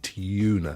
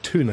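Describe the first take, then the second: First: It starts with a 'tyoo' sound. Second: It starts with a plain 'too' sound. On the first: This is how people in the UK say it. "we say tuna" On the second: This is how Americans say it. "you guys call it tuna"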